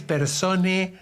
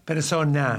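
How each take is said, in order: First: "persone" said slowly, ending in an e; the contested word "persone", drawn out to show the e ending; inclusive-language ending. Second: Said in the usual way. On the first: Shown as a demonstration. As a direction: stretch out "persone" with a final e. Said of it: "no es persone". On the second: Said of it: "con el cambio de letra".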